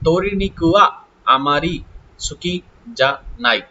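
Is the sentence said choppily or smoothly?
choppily. The sentence is broken into choppy, uneven pieces. The speaker calls it wrong.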